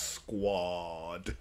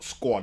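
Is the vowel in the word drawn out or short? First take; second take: drawn out; short. First: The vowel is stretched out long. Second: The vowel is short and clipped. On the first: The speaker calls it right. "there's five A's in Squad" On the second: The speaker calls it wrong. "it's not Squad"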